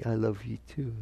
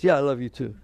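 First: Soft, sincere answer; expected loving reply. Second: Louder, dismissive love-you-back; offhand reply. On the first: Partner answers an intimate declaration of love, softly sincere. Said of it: "They're supposed to say". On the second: Partner answers a declaration of love the wrong way, offhand and louder. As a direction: toss it back without feeling. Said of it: "What if they say it like this?". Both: Acted.

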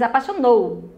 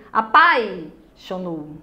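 First: Apaixonou stressed on the final NOU; correct final stress. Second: Apaixonou wrongly stressed on PAI; misplaced stress. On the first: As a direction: land the weight on the last syllable of apaixonou. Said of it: "Você diz apaixonou". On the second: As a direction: punch and hold PAI in apaixonou, then break before xonou. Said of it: "Você não diz". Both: Shown as a demonstration.

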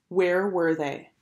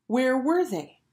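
First: Slow, usual-pitched wondering; drawn-out, subdued question; slow worried question. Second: Raised, worried wondering; higher-pitched anxious question. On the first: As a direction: linger on each word as the wait drags. Same question, slowly and low. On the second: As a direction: ask it higher, wondering where they are. Worried wait for late boys. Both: A narrator's reading.

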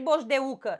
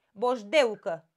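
First: "boșdeucă" with U stressed as its own syllable; wrong hiatus pronunciation. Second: "Boșdeucă" with EU glided as one syllable; correct diphthong pronunciation. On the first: Teacher shows what she does not say, U split off and stressed. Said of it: "Dacă ar fi pe U, ar trebui să-l pun singur în silabă". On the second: Teacher models the word for the class, EU in one syllable. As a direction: say "Boșdeucă" with E and U run together. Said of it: "Păi hai să-l pronunțăm". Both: Shown as a demonstration.

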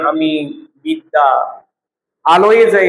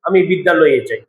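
First: বিদ্যা and আলোয়ে kept apart by pauses; unjoined words. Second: বিদ্যা and আলোয়ে run into one word; joined, shortened বিদ্যালয়ে. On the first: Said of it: "এটা না বলে যদি বলি". (বিদ্যা আর আলোয়ে আলাদা করে উচ্চারণ) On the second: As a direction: merge the two আ sounds in বিদ্যালয়ে. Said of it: "একটু সংক্ষিপ্ত করে বলি". (বিদ্যালয়ে একসাথে, সংক্ষিপ্ত করে) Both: Shown as a demonstration.

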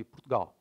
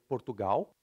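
First: Portugal squeezed to "Prtgal"; European Portuguese pronunciation. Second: Portugal with every syllable full, "por-tu-gau"; Brazilian pronunciation. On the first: Teacher naming the country as locals do, clipped "Ptgal" for Portugal. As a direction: swallow the first vowels of Portugal. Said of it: "like in Portugal". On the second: Teacher naming the country as Brazilians do, full-vowelled Portugal. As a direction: end Portugal on a u sound, vowels unreduced. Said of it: "In Brazil". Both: Shown as a demonstration.

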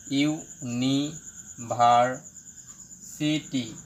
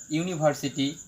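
First: university very slowly, in separate chunks; broken into syllables. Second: Said in the usual way. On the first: Shown as a demonstration. Teacher breaking up a word, university syllable by syllable. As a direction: pause between each part of university: iu, ni, bhar, si, ti. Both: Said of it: "এটা যদি আমি ভেঙে লিখি".

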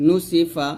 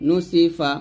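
The two takes are said the same way.

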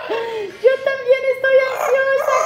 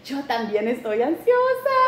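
First: High, laughing, half-shouted; laughing squeal. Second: Said in the usual way. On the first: Real, not acted. Vlogger admitting she is anxious, laughing squeal.

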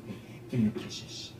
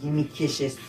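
First: Breathy whisper, much softer; whispered coaxing. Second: Said in the usual way. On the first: Pretend. Gamer coaxing an in-game pet for kisses, whispered.

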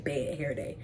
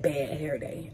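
First: Soft secretive whisper. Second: Said in the usual way. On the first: Real, not acted. Repeats phrase in a whisper.

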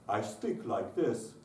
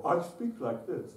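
First: Said in the usual way. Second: Higher, slower, open-throated speaking voice; open-cave tone. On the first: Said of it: "the cave needs to be open". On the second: Shown as a demonstration. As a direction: speak with a yawn-open back of the mouth. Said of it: "You'll hear it. They'll go".

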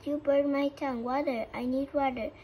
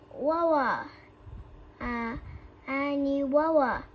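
First: Loud pleading yell for water; desperate shout. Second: Loud, mangled "Wawa" for water; burned tongue. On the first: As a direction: shout "water" clearly, tongue burning. Coyote begging for water. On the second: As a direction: yell "Wawa" like your tongue is on fire. Tongue burned by hot sauce. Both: A narrator's reading.

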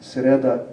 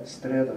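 First: Sreda with s straight into r; no inserted t. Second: Streda with t between s and r; inserted t. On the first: Lecturer showing the sound change, sreda before t appears. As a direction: say sreda without a t. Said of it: "So by the same token". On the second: Lecturer showing the sound change, streda with added t. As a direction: let a t pop up in streda. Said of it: "it pops up between". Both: Shown as a demonstration.

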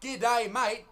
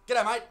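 First: "G'day, mate" as two separate, careful words; over-pronounced "G'day ... mate" with a gap; wrong way of saying it. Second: "G'day, mate" run together as one quick word; "G'day, mate" squashed into "g'daymate"; correct Aussie slang. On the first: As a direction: spell out "G'day, mate" word by word. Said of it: "It's not, "G'day, mate." It's, "G'day, mate". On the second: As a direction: toss off "G'day, mate" without a gap. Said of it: "It's, "G'day, mate". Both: Shown as a demonstration.

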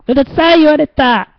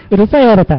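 First: High, wounded cry; mock dismay. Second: Repeating it through a laugh. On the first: Host reacts to a viewer calling him noisy, high mock dismay. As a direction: whine that you got told off. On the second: Host laughs off being called noisy by a viewer. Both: Real, not acted.

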